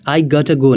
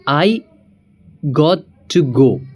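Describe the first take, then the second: First: Got to is merged into one word, gotta. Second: Got to is said as two full words.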